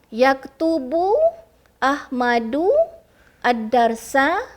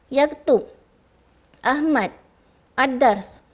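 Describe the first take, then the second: First: Each word ends with a short vowel. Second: Each word ends on a bare consonant. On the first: The speaker calls it right. "yang tu betul" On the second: The speaker calls it wrong. "tu salah"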